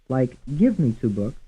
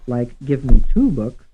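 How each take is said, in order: First: The stress falls on the word give. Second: The stress falls on the word two. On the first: "Some will be stressed on the first syllable" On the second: "Some stressed on the third syllable"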